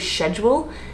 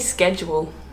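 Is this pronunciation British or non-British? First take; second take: British; non-British. First: The word is said in a British way. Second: The word is said in a non-British way. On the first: "I think the Brits say schedule" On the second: "I say schedule"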